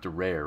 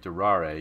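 First: It is said plainly, without Italian flair. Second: It is said with an Italian flourish. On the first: The speaker calls it wrong. "It's not durare" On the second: The speaker calls it right. "You got to put like the flourish on the Italian language"

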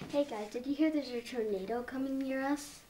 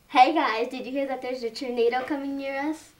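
First: It is said fairly quietly. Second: It is said loudly.

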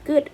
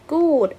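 First: The vowel is a short, in-between oo sound. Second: The vowel is a long oo sound. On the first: "ฝรั่งออกเสียงกึ่งเสียงก็คือ" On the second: "กอไก่แล้วก็สระอูแล้วก็ดอเด็ก"

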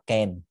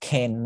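First: The consonant is a plain, unaspirated k sound. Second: The consonant is a breathy kh sound. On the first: The speaker calls it right. "mình sẽ đọc là can" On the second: The speaker calls it wrong. "mình sẽ không đọc là can"

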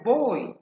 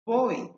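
First: The word ends in a clear 'ee' vowel. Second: The same.

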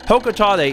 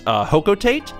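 First: The ending does not rhyme with 'freight'. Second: The ending rhymes with 'freight'. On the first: This is how the real street name is said. The speaker calls it right. "Hokotate is the correct pronunciation" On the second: This may be the intended English version. The speaker calls it wrong. "which may be the intended English pronunciation"

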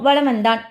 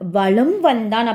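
First: The m before v is shortened and weak. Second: The m before v is fully pronounced. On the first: The speaker calls it right. "கொஞ்சம் sound என்ன ஆகிடும், கம்மியாயிடும்" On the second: The speaker calls it wrong. "அப்படின்ட்டு நம்ம சொல்ல மாட்டோம்"

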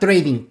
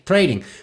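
First: The middle consonant is a clear d sound. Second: The middle consonant sounds like a quick r. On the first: The speaker calls it wrong. "no me van a escuchar pronunciándolo bien" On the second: The speaker calls it right. "sustituyes la D por una R y la I por una E"

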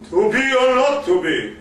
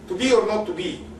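First: It is said with full, projected theatrical resonance. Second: It is said plainly, without resonance or projection.

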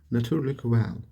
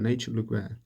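First: The first part has a Dutch vowel sound. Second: The first part sounds like the English word nature. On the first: The speaker calls it right. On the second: The speaker calls it wrong.

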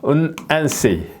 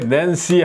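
First: It begins with a long, held n sound. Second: It begins with a short, plain n sound. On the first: The speaker calls it right. "낸시 하면은 은앤시 하는 거죠" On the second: The speaker calls it wrong. "우리 식으로 이렇게 낸시 하면은 이거는 영어는 파닉스가 아닌 거예요"

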